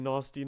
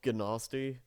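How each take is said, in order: First: The word starts with an N sound. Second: The word starts with a hard G sound. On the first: The speaker calls it right. "it's supposed to be Nasty Nork" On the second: The speaker calls it wrong. "pronouncing it wrong"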